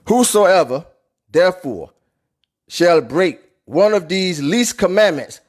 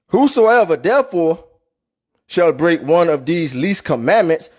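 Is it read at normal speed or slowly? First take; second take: slowly; normal speed. First: It is read very slowly. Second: It is read at normal speed.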